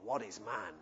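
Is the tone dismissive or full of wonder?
dismissive. The tone is harsh and dismissive. Humans are worthless. The speaker calls it wrong. "it's not a harsh dismissal of humanity"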